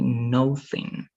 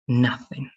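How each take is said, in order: First: The first vowel sounds like the word no. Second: The first vowel sounds like the vowel in nut. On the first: The speaker calls it wrong. "It's not going to be nothing" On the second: The speaker calls it right. "It's going to be nothing, nothing, right? More than uh, a a between O and A"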